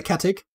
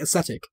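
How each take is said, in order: First: It is said with an ancient Latin-style pronunciation. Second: It is said with a modern Latin-style pronunciation. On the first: "in ancient Latin, this would have been acatic" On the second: "in more modern Latin, I think it would be ascetic"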